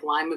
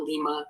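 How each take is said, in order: First: "lima" said LYE-muh, long i as in "lime"; bean-style pronunciation. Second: "Lima" said LEE-muh, long ee first; Peruvian city pronunciation. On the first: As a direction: say "lima" with a first syllable rhyming with "eye". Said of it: "it's pronounced like lima bean". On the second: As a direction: say "Lima" with a first syllable rhyming with "see". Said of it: "not Lima, Peru". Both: Shown as a demonstration.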